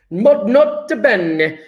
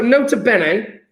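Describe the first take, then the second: First: Slow, stretched Italian accent; hammed-up Italian accent. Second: Said in the usual way. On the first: Shown as a demonstration. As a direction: draw it out like a mock Italian. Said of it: "I'm saying it with an Italian accent". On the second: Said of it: "I'll take that back".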